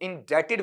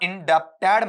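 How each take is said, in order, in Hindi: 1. b की आवाज़ पूरी तरह छोड़ दी जाती है। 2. बीच में b जैसी आवाज़ बोली जाती है। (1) "इंडेटेड वहां पर बोला जाएगा" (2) "इंडेप्टेड मत पढ़ना"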